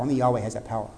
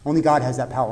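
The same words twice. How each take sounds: First: "Only Yahweh has that power" dropped lower and softer; a low, soft echo of "Only Yahweh has that power"; hushed repeat. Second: Said in the usual way. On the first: Shown as a demonstration. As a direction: let the name sink in, hushed. Hushed repeat of key line.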